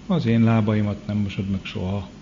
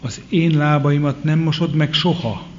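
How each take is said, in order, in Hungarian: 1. A mondat nyugodt, egyszerű hangon hangzik el. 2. A mondat szenvedélyes, elutasító hangon hangzik el.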